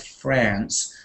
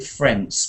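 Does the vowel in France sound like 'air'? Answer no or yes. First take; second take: no; yes. First: The vowel is a moderate American-style vowel. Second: The vowel is exaggerated toward an 'air' sound. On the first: The speaker calls it right. "in a kind of American accent like France" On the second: The speaker calls it wrong. "don't go too far to make it France because it, it, it shouldn't be air at all"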